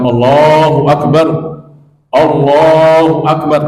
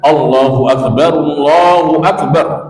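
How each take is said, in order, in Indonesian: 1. Sebuah napas memecahnya menjadi dua bagian. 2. Ia diucapkan dalam satu napas yang tidak terputus. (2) "satu kali nafas"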